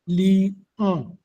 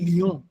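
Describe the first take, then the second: First: The word is split into two syllables, li-on. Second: The word is said as one smooth syllable. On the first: The extra syllable makes the verse line reach its count. "je peux couper le mot lion dans deux sons" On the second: This is the ordinary everyday form. "Normalement, on dit lion"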